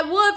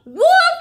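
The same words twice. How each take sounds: First: Mock cry. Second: High, loud sudden shout; crying wolf. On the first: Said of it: "he's gonna cry". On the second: Acted. Teacher previews the boy's cry, high loud shout. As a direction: shout it out as a warning. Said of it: "He's gonna say".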